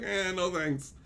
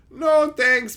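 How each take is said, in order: First: Soft, offhand refusal; dismissive mumble. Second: Higher, firmer mock-polite refusal; firm brush-off. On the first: Acted. Turning down interacting with kids, quiet dismissal. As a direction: brush it off under your breath. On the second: Waving off a kid as buddy, firm brush-off. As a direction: turn them down out loud.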